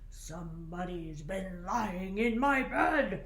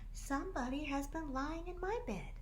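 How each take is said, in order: First: The voice is deep and gruff. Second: The voice is at a medium pitch. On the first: A big father bear speaks. "said in his great gruff voice" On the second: A middle-sized mother bear speaks. "said in her middle-sized voice"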